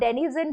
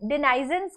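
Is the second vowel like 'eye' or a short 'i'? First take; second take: short i; eye. First: The second vowel is a short 'i'. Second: The second vowel sounds like 'eye'. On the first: "अगर आप इसे आय के जैसे pronounce नहीं करते हैं तो आप डेनिजन बोलते हैं" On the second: "इसे आय के जैसे प्रोनाउंस"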